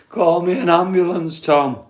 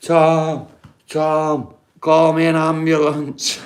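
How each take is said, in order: First: Higher, strained mock panic; hammed-up scream. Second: Retold scream. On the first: Overdosed housemate pleads with Tom, hammed-up panicked call. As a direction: ham up the housemate begging for help. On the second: Housemate begs Tom for an ambulance, mild mock yell. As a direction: call for help like a panicking housemate, half-hearted. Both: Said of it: "The guy was screaming".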